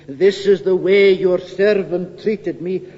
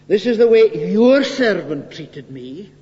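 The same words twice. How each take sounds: First: The word 'your' is not emphasized. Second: The word 'your' is emphasized.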